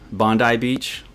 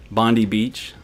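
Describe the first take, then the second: First: Bondi as BON-dye, ending in "eye"; Aussie pronunciation. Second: Bondi as BON-dee, ending in "ee"; American pronunciation. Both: Shown as a demonstration. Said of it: "I'll try to say it correctly".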